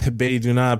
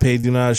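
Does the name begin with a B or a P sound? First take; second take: B; P. First: The name begins with a voiced B sound. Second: The name begins with a voiceless P sound. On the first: "they pronounce that same character with a B or a P" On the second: "I bet some Korean people pronounce it Pay"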